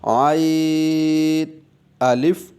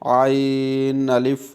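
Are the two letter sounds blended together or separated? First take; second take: separated; blended. First: The first sound is finished before the second starts. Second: The second sound runs into the unfinished first. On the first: The speaker calls it right. "आइन को आप मुकम्मल करेंगे, देन आप अलिफ को अदा करेंगे" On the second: The speaker calls it wrong. "इसके साउंड में ही आप अलिफ की आवाज़ मिक्स कर दें"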